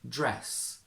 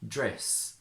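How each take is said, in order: First: The vowel is open, a clear 'e'. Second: The vowel is closed, sounding near 'i'.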